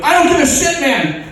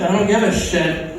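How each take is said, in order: First: High, loud cry for a superhero; desperate citizen hailing a hero; urgent calling out. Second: Unbothered brush-off; couldn't-care-less superhero; indifferent. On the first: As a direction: call for help at the top of your range. Citizen calls superhero for help. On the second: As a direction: shrug off the plea in an everyday voice. Superhero refuses, not caring. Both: Acted.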